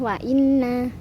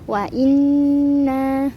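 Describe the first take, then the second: First: The nasal n is short, without a hum. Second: The nasal n is held with a hum. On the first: The speaker calls it wrong. "bukan wa inna" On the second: The speaker calls it right. "Dibaca dengung selama dua sampai tiga harokat"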